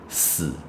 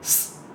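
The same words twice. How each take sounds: First: The s is followed by a voiced vowel. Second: The s is a bare hiss without vowel. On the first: The speaker calls it wrong. "有些学生就会念成死" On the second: The speaker calls it right. "正确应该是死"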